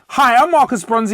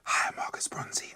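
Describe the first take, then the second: First: It is said very loudly and powerfully. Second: It is said in a whisper.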